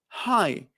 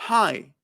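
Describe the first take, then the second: The two takes are said the same way.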